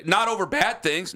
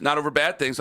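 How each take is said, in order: First: NOT said high and slow; stress on NOT. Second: Said in the usual way. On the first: Real, not acted. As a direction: lean on the word Not, drawn out. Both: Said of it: "I don't like to drink over sad things".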